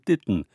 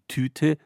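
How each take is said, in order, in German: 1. Der erste Konsonant ist ein weicher, nicht aspirierter Verschlusslaut. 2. Der erste Konsonant ist ein harter, aspirierter Verschlusslaut.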